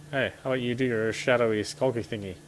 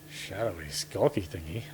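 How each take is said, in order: First: Said in the usual way. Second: Mocking repeat. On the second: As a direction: repeat it back with amused disbelief. Partner repeats phrase mockingly.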